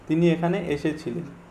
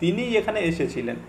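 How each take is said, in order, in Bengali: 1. শব্দগুলো সমানভাবে, কোনো বিশেষ জোর ছাড়া বলা হয়। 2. প্রথম শব্দ, তিনি, জোর দিয়ে বলা হয়। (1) "এটা একটা নর্মাল একটা সেন্টেন্স" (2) "এখানে আমি জোর দিয়ে বলছি ... এই তিনির উপরে জোর দেওয়া হচ্ছে"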